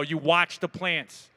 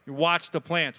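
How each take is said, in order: First: Slow emphasis. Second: Said in the usual way. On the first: Shown as a demonstration.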